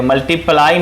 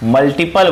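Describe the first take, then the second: First: Put-on मल्टीप्लाई said as the word kids wrongly use; the common slip मल्टीप्लाई. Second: मल्टीपल with a firm falling end; teacher's firm correction to मल्टीपल; correct word said. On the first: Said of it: "कुछ बच्चे इसे मल्टीप्लाई बोलते हैं". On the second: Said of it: "मल्टीप्लाई ना बोले आप लोग, मल्टीपल बोले". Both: Shown as a demonstration.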